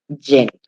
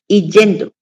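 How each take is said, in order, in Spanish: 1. La palabra empieza con un sonido consonante y. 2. La palabra empieza con una vocal i simple. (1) "Lo correcto es decir yendo" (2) "pronuncia mal ese gerundio del verbo ir"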